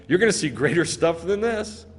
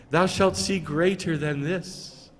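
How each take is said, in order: First: Lightly teasing, casual promise; mocking. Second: Slow, solemn scriptural parody; mock pious. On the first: Preacher voicing Yeshua promising Nathanael more, mocking. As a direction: toss it out as a mild taunt. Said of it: "He's mocking him". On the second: Preacher parodying a reverent Yeshua to Nathanael, mock pious. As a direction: intone it slowly as a mock blessing. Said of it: "He's not going".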